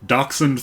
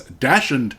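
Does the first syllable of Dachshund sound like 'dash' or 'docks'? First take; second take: docks; dash. First: The first syllable sounds like 'docks'. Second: The first syllable sounds like 'dash'. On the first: The speaker calls it right. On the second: The speaker calls it wrong.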